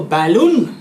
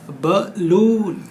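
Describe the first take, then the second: First: बैलून with a long open bai sound; wrong pronunciation. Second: बलून with short buh, stretched very slowly; correct, slow. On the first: Teacher showing the class the wrong बैलून. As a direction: say बैलून as bai-loon, the common mistake. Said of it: "गलत". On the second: Teacher slowly modelling the right बलून for pupils. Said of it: "नहीं". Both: Shown as a demonstration.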